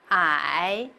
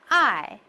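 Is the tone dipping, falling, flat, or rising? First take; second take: dipping; falling. First: The pitch dips down, then rises. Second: The pitch falls sharply from high to low. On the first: "The third tone is first down and then up" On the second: "The fourth goes from the top to the lowest"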